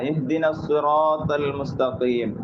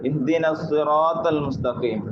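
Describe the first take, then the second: No difference in how they are said.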